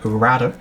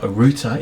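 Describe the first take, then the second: First: It is said with a non-British accent. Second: It is said with a British accent.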